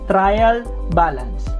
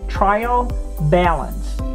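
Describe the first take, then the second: First: It is said in a Filipino accent. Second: It is said in an American accent. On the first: "Some students will say trial balance. So that's fine for a Filipino" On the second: "to put an American accent"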